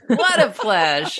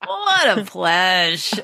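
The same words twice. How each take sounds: First: What a pleasure said clipped, like pledge; pledge pronunciation. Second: Slow What a pleasure, lingering on What; drawn-out pledge. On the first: Host savoring the new abbreviation, What a pleasure clipped. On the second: Host tasting the phrase again, slow and relishing. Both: Shown as a demonstration. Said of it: "I've never said pledge".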